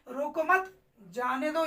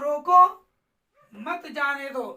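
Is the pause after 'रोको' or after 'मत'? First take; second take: after मत; after रोको. First: There is a pause right after 'मत'. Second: There is a pause right after 'रोको'.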